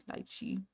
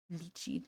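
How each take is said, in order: First: "lychee" said as LIE-chee; "lychee", first syllable like "lie"; alternative pronunciation. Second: "Lychee" said as LEE-chee, softly; soft "Lychee", first syllable like "lee"; alternative pronunciation. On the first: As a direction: try out "lychee" with a long i sound. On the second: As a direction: try out "Lychee" quietly with an ee sound. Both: Shown as a demonstration.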